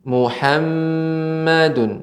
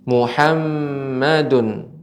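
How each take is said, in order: The two takes are said the same way.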